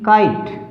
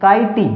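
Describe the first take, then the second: First: The word ends on the t consonant. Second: The word ends with an extra ee vowel. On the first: The speaker calls it right. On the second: The speaker calls it wrong.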